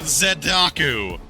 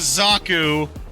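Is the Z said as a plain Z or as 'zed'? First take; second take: zed; plain Z. First: The name starts with the sound 'zed'. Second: The name starts with a plain Z sound. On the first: "forcibly say the Canadian Z" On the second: "the standard Z"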